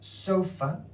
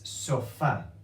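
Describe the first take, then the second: First: The stress is on the first syllable. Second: The stress is on the last syllable. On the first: The speaker calls it wrong. "this is not sofa" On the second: The speaker calls it right. "it's sofa"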